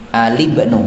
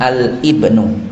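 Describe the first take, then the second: First: The article runs straight into the word. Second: A glottal catch separates the article from the word. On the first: The speaker calls it right. "kalau wasli itu membacanya sambung" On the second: The speaker calls it wrong.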